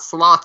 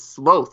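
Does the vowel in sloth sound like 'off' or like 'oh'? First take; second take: off; oh. First: The vowel sounds like the one in off. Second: The vowel sounds like the one in oh. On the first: The speaker calls it wrong. "it's not sloth, you idiot" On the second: The speaker calls it right. "It's sloth, you fucking idiots"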